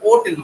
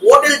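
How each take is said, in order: First: The word begins with a vowel sound. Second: The word begins with an h sound. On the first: "হোটেলটাকে ওটেল উচ্চারণ করে" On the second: "হোটেল যদি বলি তখন"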